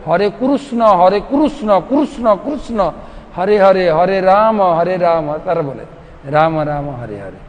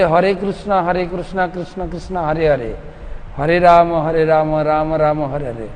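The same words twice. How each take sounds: First: Put-on chanted, Odia accent, slower, the name stretched out; Odia-style chanting. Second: Said in the usual way. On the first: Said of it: "Orissa লোকেরা বলে". (chanted, Odia টানে হরে কৃষ্ণ গাওয়া) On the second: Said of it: "আমরা বলি".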